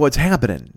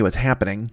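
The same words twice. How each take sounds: First: The final g of happening is dropped. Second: The final g of happening is clearly pronounced. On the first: The speaker calls it right. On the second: The speaker calls it wrong.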